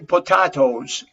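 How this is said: The word is said in a British accent. "British people would say potatoes"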